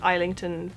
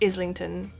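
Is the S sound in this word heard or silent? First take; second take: silent; heard. First: The S is silent. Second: The S is clearly pronounced. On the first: The speaker calls it wrong. "I know this looks like Islington" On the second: The speaker calls it right. "You do pronounce the S"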